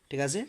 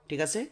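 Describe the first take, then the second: Both takes have the same delivery.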